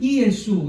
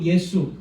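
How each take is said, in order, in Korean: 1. 이 이름은 그리스어 형태로 발음됩니다. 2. 이 이름은 한국어 형태로 발음됩니다. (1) "헬라어로는 이예수 이거고" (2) "우리는 한글로 예수 이렇게 발음을 합니다"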